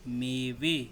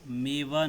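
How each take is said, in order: First: The word ends with an 'e' vowel. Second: The word ends with an 'a' vowel. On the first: The speaker calls it right. "बल्कि मेवे" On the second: The speaker calls it wrong. "मेवा नहीं है"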